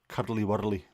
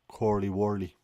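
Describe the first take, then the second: First: It is said in a Glaswegian accent. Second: It is said in a Dublin accent. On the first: "in either a Glaswegian" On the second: "or a Dublin accent"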